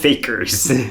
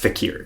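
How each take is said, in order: First: It is said like the English word fakers. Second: It is said as fa-keer, with a long second vowel. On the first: The speaker calls it wrong. "But that's not how you pronounce it" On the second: The speaker calls it right. "no, it's fakir"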